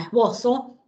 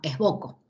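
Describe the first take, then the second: First: The consonant before the final vowel is an s. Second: The consonant before the final vowel is a k. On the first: The speaker calls it right. "se pronuncia como la Z nuestra" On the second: The speaker calls it wrong. "no como esboco"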